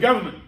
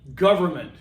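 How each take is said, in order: First: The middle 'er' sound is dropped. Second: The middle 'er' sound is clearly pronounced. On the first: The speaker calls it wrong. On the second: The speaker calls it right. "there is an E R"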